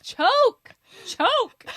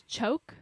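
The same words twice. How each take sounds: First: High, full-force shouted command; loud imitation of an insistent order; louder and louder. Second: Said in the usual way. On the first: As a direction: yell it like an exasperated director. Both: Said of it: "kept saying it louder and louder".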